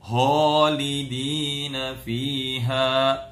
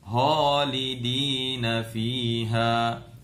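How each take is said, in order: First: The first consonant is pushed too far back, throaty. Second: The first consonant is pushed too far back, throaty.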